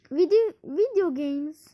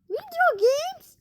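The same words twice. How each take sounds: First: Said in the usual way. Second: High, slow sing-song. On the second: Acted. Gamer lilting the category name. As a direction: lilt it up and stretch it.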